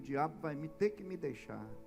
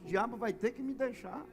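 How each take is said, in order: First: It is said at normal loudness. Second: It is said more loudly and forcefully.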